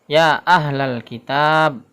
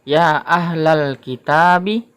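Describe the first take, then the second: First: The last word ends on the consonant b. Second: The last word ends with a final vowel. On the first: The speaker calls it right. "huruf ba ini harokatnya tidak kita baca, jadi seperti disukunkan saja" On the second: The speaker calls it wrong. "Ini bacanya adalah ya ahlal kitabi"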